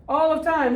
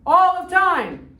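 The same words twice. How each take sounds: First: High, loud shout of all of time; shouted claim. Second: "All of time" stretched very slow, high and loud, ALL stressed; slow emphatic repeat. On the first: Retold or imitated. Teacher voicing Algerians, a mock shouted "all of time". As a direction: fling "all of time" out as a defiant cry. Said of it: "What do the people in Algeria say?". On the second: Shown as a demonstration. Teacher repeating for the class, a slow, booming "All of time". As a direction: drag out "All of time" and hit ALL hard.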